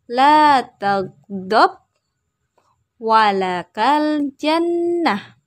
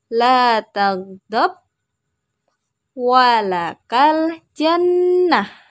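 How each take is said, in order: The two takes are said the same way.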